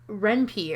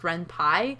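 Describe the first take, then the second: First: The last syllable does not sound like 'Py' in 'Python'. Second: The last syllable sounds like 'Py' in 'Python'. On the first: The speaker calls it wrong. "I've always pronounced it as Renpi" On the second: The speaker calls it right. "technically supposed to be pronounced RenPy because the programming language that it uses is Python"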